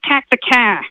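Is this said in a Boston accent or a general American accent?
Boston. It is spoken in a Boston accent. "if you go to South Boston, it's like"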